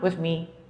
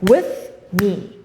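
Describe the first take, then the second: First: It is said softly and with little energy. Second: It is said loudly and with strong energy. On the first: The speaker calls it wrong. "It's not strong enough" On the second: The speaker calls it right. "You say it like that"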